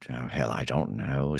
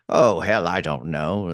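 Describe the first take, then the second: First: Put-on low, soft old tree wizard. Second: Lightly voiced old tree wizard, punchy opening; an old tree's catchphrase, starting strong then settling. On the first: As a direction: sink the wizard's catchphrase down quietly. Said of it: "say it different ways". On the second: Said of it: "get into that voice". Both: Shown as a demonstration.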